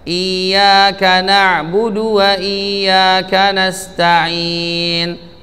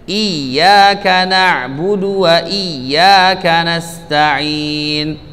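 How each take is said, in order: First: The doubled ya has no extra stress. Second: The doubled ya is stressed with higher pitch. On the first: The speaker calls it wrong. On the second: The speaker calls it right. "Pada huruf ya bertasydid"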